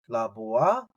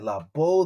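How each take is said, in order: First: The word ends with the final vowel sound. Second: The word ends without the final vowel sound. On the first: "I don't" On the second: "Some will just say La Bo. They'll make this aleph on the end silent"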